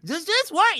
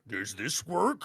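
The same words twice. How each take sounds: First: It is said in a higher voice. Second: It is said in a low toad voice.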